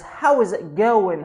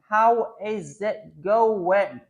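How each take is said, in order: First: 'How is' is contracted to one syllable. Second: 'How is' is said as two full words.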